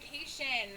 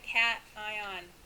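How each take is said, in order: First: It sounds like 'kay-shun', rhyming with vacation. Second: It sounds like 'cat-ion', two separate parts. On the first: The speaker calls it wrong. "like a vacation" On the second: The speaker calls it right. "Keep the two words separate"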